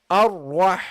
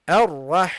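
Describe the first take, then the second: The two takes are said the same way.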